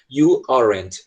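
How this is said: It is said with an American accent. "americano fala you aren't, do jeito que eu falei"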